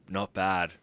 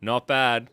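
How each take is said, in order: First: Said in the usual way. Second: Not bad repeated higher and louder with relish; emphatic approving not bad. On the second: Real, not acted. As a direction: savour it and say it louder. Tasting beer, repeated verdict.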